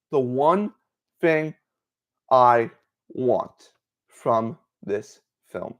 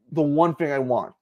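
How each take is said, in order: First: Very slow, word by word; slow emphasis. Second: Said in the usual way. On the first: Real, not acted. Fan spelling out the one wish for this film, slow emphasis. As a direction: space out each word, with pauses between.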